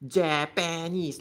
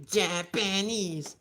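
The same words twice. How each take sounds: First: Slow Japanese with a zh start, zha-pa-nese; mock Singaporean Japanese. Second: Slow, careful Japanese with a hard j; correct Japanese. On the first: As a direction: Japanese said with zh instead of j. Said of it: "pronounce it as". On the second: Shown as a demonstration. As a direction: Japanese spelled out in sound, proper j. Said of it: "no, it's like".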